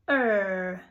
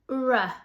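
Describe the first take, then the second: First: The consonant is said as a pure sound. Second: The consonant is said with an added vowel. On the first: The speaker calls it right. "the pure sound, which is er" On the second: The speaker calls it wrong. "Some people say r"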